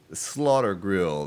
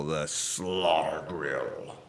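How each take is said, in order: First: Said in the usual way. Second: Very slow, drawn-out, lower and sinking; hammed-up ominous voice. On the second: Streamer naming the zombie grill, hammed-up ominous voice. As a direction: stretch it out like a mock horror title.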